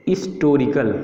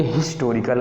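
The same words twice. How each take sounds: First: हिस्टोरिकल said as "istorical", starting on the vowel; हिस्टोरिकल with no H sound at the front; silent H. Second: हिस्टोरिकल with an audible H at the start; हिस्टोरिकल begun on a voiced-out "hi", H not dropped; wrong, H sounded. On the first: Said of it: "एच क्या हमारा silent, हम इसको नहीं पढ़ते, हमें पढ़ना यहाँ पे है". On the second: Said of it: "लेकिन बिल्कुल ही गलत है". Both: Shown as a demonstration.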